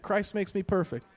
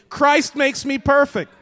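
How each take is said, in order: First: Said in the usual way. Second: High, loud, forceful declaration; like you mean it. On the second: Shown as a demonstration. Preacher rousing the congregation to say it like they mean it, loud and emphatic. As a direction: declare it loudly with full conviction. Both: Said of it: "Let's say it like you mean it".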